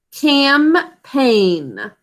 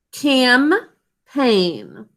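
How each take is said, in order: First: Campaign said carefully as cam-paign, two clear syllables; sounding out. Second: Campaign spoken slowly as cam-paign, two syllables; sounding out again. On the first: Teacher to spelling class, sounding out the word Campaign in two syllables. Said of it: "sound it out with me". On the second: Teacher repeating for class, sounding out Campaign syllable by syllable. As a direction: repeat Campaign split into two clear beats. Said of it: "You sound that out with me again?". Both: Shown as a demonstration.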